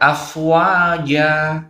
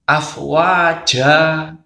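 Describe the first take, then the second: First: The final syllable is said clearly without breath. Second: The final syllable is said with a breathy puff. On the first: The speaker calls it right. "yang benar afwaja" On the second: The speaker calls it wrong. "bukan afwaja ... tidak boleh ada hembusan angin"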